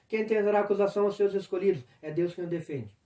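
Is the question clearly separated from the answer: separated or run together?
run together. The question runs straight into the answer. The speaker calls it wrong. "Senão você vai ler"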